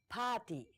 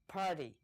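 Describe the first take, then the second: First: The word is said without an R sound. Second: The word is said with an R sound. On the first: The speaker calls it right. "we don't have any R sound. It's gonna be party" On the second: The speaker calls it wrong. "It's not gonna be party"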